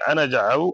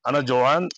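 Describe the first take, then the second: First: The second word begins with a 'ja' sound. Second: The second word begins with a 'jo' sound. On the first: This is the standard form. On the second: This is a regional form.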